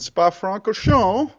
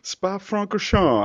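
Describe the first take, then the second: First: The name is pronounced with an English accent. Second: The name is pronounced with a French accent. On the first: The speaker calls it wrong. "I somehow butchered that with an English accent" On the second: The speaker calls it right. "even though I can perfectly pronounce it"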